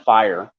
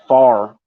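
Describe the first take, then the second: First: The vowel glides like 'eye'. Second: The vowel is a flat 'ah' sound. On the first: "instead of fire" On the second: "say far instead of fire"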